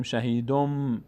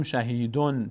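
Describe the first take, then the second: First: شهیدم slowly, ending in a long hummed m; n turned to m. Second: شهیدون ending in a clear n; wrong n reading. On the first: Teacher shows what we say, شهیدم with lengthened m. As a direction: hold the final m of شهیدم. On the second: Teacher shows what not to say, شهیدون with plain n. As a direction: keep the final n of شهیدون. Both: Shown as a demonstration.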